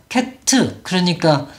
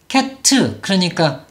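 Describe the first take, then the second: Both takes have the same delivery.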